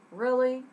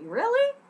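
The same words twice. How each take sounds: First: Dry, unimpressed disbelief; level, skeptical sarcasm; sarcastic. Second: Very high, loud, rising delight; thrilled, high-pitched surprise; excited. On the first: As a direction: say it like you mean no. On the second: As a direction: squeak it like you mean yes. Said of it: "With excitement". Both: Shown as a demonstration.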